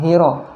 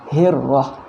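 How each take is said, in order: First: The r sound is short and single. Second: The r sound is held and doubled. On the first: The speaker calls it wrong. "jangan hiro ya" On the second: The speaker calls it right. "di huruf ra juga tasydid ya"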